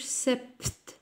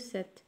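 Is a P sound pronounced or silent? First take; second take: pronounced; silent. First: A P sound is pronounced. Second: The P is silent. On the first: The speaker calls it wrong. "ما نقولوش" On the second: The speaker calls it right. "نقولو sept"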